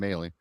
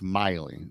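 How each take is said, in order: First: The first syllable sounds like 'may'. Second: The first syllable sounds like 'my'. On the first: The speaker calls it wrong. "I was saying it wrong all week" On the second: The speaker calls it right. "and then it's Miley. So I got that corrected"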